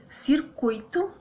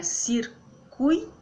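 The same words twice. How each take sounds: First: Said in the usual way. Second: "Circuito" as cir-cui-to, slowly; syllable by syllable. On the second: Shown as a demonstration. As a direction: keep cui together in Circuito, pauses either side. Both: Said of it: "fica, né?".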